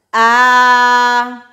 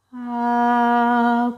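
First: Sung, a loud ah with the air thrown out; sung, belt the ah carelessly, no support; pushed-out sung note. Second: Supported held note. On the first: Sung, voice teacher shows the wrong note, loud and pushed. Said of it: "note que não é". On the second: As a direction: sing the ah gently, holding the air in. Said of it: "porque eu tô retendo isso". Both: Shown as a demonstration.

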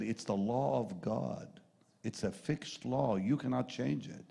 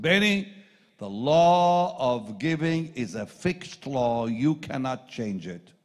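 First: Slow, measured restatement of the law; calm restatement. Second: Slow, loud, weighty pronouncement; solemn mentor. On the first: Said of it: "he said". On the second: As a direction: lay down the law deliberately. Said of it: "he gave me a line I'll never forget". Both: Retold or imitated.

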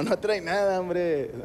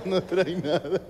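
First: Lightly amused, dismissive doctor; a hint of a doctor holding back laughter; imitated laughing doctor. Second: Mock laughing through the words; doctor cracking up at the patient; imitated laughing doctor. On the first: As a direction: wave it off with a mock chuckle in the voice. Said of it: "el vato riéndose dijo". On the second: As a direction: giggle it out, rising at the end. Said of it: "Riéndose el hijo de puta".

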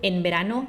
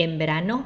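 First: "En verano" with a clear n, "en-berano"; n kept distinct. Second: "En verano" said as "em-berano"; n blended to m. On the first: Teacher comparing both readings, n pronounced as written. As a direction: keep the tongue-tip n in "En verano". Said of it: "เนี่ย ถ้าพูด En verano". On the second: Teacher showing it hardly differs, n turned to m. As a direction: let the n of "En verano" become m. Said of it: "จริงๆ มันแทบจะไม่ต่างนะ". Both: Shown as a demonstration.

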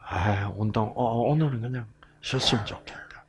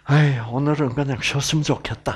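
First: Fast, soft whispered grumble; thinking aloud about skipping exercise, whispered. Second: Said in the usual way. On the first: Shown as a demonstration. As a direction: mutter it to yourself, whispered. Lazy thought before exercise.

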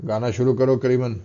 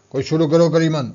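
First: Lazy order said through a yawn. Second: A mildly raised, irritated order; enraged. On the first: Bhatthal lazily tells Kariman to sing, mid-yawn. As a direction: drag it out as if half yawning. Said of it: "بٹھل نے جمائی لیتے ہوئے کہا". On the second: Moti flares up and orders Kariman to start, mildly enraged. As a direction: snap the order at her with some heat. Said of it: "موتی نے بپھر کے کہا". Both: A narrator's reading.

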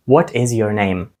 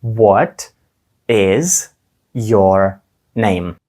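First: Faster. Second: "What", "is", "your name" with pauses between; calmly, word by word with gaps; slow and calm. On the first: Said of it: "Ще швидше". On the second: Teacher asks learners to say it slowly. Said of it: "спробуємо спокійно, повільно". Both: Shown as a demonstration.

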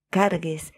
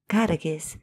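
Both takes have the same delivery.

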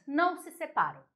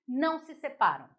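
The two takes are said the same way.

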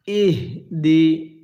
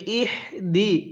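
First: Very slow, measured ইহদি; correct H. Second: ইহদি read quicker, with a misarticulated H; wrong H. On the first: Teacher models the H for learners, slow recited ইহদি. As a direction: sound out ইহদি in two separated syllables, the H breathed out. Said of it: "এই হাটা উচ্চারণের সময়". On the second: Teacher imitates a common mistake, misread H in ইহদি. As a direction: say ইহদি in a talking pace, not recited. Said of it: "এরকমভাবে পড়ি। যদি এরকমভাবে পড়ি তাহলে পড়াটা সহি শুদ্ধ হবে না". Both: Shown as a demonstration.

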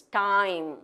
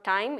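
First: Time with a long gliding "ah-ee" vowel; correct pronunciation. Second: Time with a short, unglided vowel; wrong pronunciation. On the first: Teacher showing the gliding sound, correctly pronounced. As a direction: stretch the diphthong in time. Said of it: "It's a diphthong". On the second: Teacher showing India's common mistake, mispronounced. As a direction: say time without a full glide. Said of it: "It's not time". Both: Shown as a demonstration.

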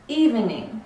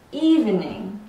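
First: Evening said as "ee-ven-ing", all three syllables; full evening. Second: Evening said as "eevning", two syllables; reduced evening. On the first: Teacher contrasting evening forms, full three-syllable evening. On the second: Teacher contrasting evening forms, reduced two-syllable evening. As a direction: drop the middle vowel of evening. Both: Shown as a demonstration. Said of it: "we actually kind of separate the two".

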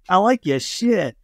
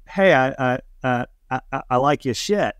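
First: Higher, drawn-out Aussie imitation; exaggerated Australian accent. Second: Put-on hesitant, stammered light Australian accent; understated imitation Australian accent. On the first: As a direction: lay on the Australian accent slowly. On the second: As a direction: put on a tentative Aussie accent. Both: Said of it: "that was an Australian accent, right?".

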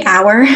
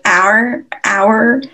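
First: Said in the usual way. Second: 'hour' squeezed into a single syllable, like 'ar'; one syllable. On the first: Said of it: "I would say hour". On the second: Shown as a demonstration. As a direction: run 'hour' together as one beat. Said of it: "is, like, one syllable".

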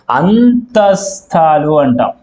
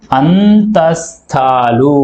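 First: Slow term. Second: అంతస్థాలు stretched very slowly syllable by syllable; very slow drawn-out term. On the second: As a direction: draw out అంతస్థాలు for students to copy. (అంతస్థాలు చాలా నెమ్మదిగా సాగదీసి) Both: Shown as a demonstration. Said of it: "అనే అక్షరాలను మనం ఏమంటాం".

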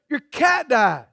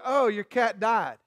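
First: Quoting the blunt line back in reproach; mock-blunt echo with a long falling end; mimicked bluntness. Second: Casually blunt, falling away softly; matter-of-fact retold reply, softened in volume. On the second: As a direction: break bad news offhandedly, no cushioning. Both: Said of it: "You never so blunt".

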